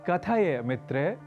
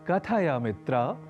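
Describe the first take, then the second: First: The vowel is an 'e' sound. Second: The vowel is an 'a' sound. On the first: The speaker calls it wrong. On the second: The speaker calls it right.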